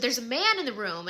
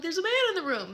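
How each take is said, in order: First: Mildly raised, imitated alarm; a touch of panic; mock screaming sister. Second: High-pitched mock panicked cry; retold screaming. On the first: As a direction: retell a frightened cry without really screaming. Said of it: "she starts screaming". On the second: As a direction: imitate a frightened shriek without full volume. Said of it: "And I'm screaming".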